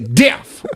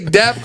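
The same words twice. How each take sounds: First: The word is said mimicking another man's delivery. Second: The word is said in a plain, ordinary way. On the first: "I say death" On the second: "every time I say death"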